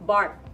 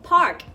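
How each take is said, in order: First: The word starts with a b sound. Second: The word starts with a p sound. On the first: "ถ้าเราออกเสียงแบบที่เราทำไปเมื่อกี้กลายเป็น" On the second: "คำว่าอ่านว่า"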